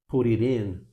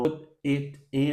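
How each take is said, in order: First: The words are joined together. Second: The words are said separately.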